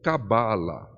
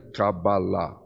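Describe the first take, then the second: First: The stress is on the middle syllable. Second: The stress is on the last syllable. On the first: This is the common Portuguese form. "Dando a, a força da sílaba tônica no ba" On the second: This follows the Hebrew form. "que a sílaba forte é a última, ela é oxítona"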